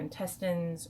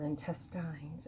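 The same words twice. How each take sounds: First: It is said in a non-Canadian pronunciation. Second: It is said in a Canadian pronunciation.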